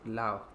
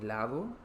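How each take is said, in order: First: The d sound between the vowels is dropped. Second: The d sound between the vowels is pronounced. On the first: "la pronunciación de lado es lao" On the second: "la pronunciación de lado es lao"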